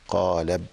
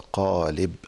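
First: The vowel after the L is "a". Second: The vowel after the L is "i". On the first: A mold or shape. The speaker calls it right. "بفتح اللام" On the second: One who turns something over. The speaker calls it wrong. "وليس قالب"

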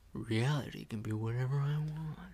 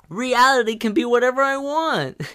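First: It is said in a Thanos impression. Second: It is said in his normal voice.

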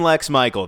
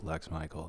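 First: The name is said brightly with high energy. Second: The name is said flatly with low energy. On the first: The speaker calls it right. "There we go. Now I know I'm here" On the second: The speaker calls it wrong. "it was very low energy. I was like"

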